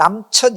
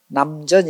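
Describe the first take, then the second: First: The name is said with a harsh consonant. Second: The name is said with a soft consonant. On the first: The speaker calls it wrong. "센 이름을 좀 피해 가요" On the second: The speaker calls it right. "좀 부드럽죠"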